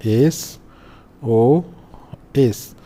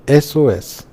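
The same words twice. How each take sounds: First: एसओएस very slow, each letter separate with long pauses; drawn-out pronunciation demo. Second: Said in the usual way. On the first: Shown as a demonstration. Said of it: "इसको जब बोलेंगे तो". (एसओएस, हर अक्षर अलग, खूब खींचकर) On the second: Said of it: "इसको जब बोलेंगे".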